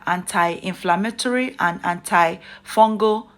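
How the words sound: It is pronounced in an exaggerated, put-on way. "I'm going overboard to pronounce anti-inflammatory and antifungal effects the way I do"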